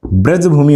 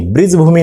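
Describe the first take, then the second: First: ब्रजभूमि with a short a, braj-bhumi; correct form. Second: ब्रिजभूमि with an i in the first syllable, higher; wrong form. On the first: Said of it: "होता है". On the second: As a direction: say ब्रिजभूमि as brij-bhumi. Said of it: "नहीं होता है". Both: Shown as a demonstration.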